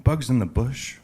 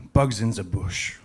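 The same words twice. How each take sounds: First: Puzzled question with a rising end; mildly acted confused doctor, own accent. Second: Put-on "the" said as "zuh" in a French accent; French-accented delivery of a joke character. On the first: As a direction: repeat it back as a baffled question. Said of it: "kinda confused". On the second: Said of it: "The young French lady says".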